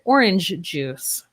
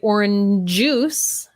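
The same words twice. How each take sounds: First: The j sounds of both words are kept separate. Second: The j sounds of both words are linked together. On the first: The speaker calls it right. "I still have to keep them separate" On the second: The speaker calls it wrong. "I would not say orange juice"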